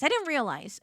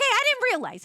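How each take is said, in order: First: Said in the usual way. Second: High defensive. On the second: Real, not acted. Mock defense.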